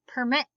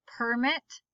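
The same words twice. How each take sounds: First: Permit as per-MIT; stress on second syllable. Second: Permit as PER-mit; stress on first syllable. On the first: Teacher reading word list aloud, stress on second syllable. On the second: Teacher reading word list aloud, stress on first syllable. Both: Shown as a demonstration. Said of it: "both of the different pronunciations".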